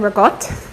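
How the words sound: It is said in a Rhode Island accent.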